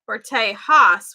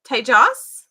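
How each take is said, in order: First: The middle consonant is said as an H. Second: The middle consonant is said as a J. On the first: "where it's an H" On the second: "It's with a J"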